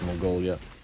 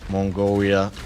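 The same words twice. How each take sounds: First: It is said in the speaker's normal accent. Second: It is said in an exaggerated mock accent. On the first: "of course" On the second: "Sorry for the racist South Park pronunciation"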